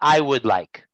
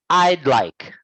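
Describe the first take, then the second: First: The words 'I would' are said fully as two. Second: The words 'I would' are contracted to one syllable. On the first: The speaker calls it wrong. "not I would like" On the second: The speaker calls it right. "So it's I'd like"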